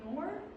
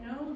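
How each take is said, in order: First: The vowel sounds like 'or'. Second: The vowel is a plain o sound. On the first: "pronounced O as A U R" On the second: "instead of saying no"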